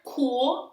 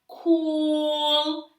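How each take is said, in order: First: The word is said at normal speed. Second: The word is drawn out slowly and long. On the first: "So I said the word cool" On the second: "I stretched the word out"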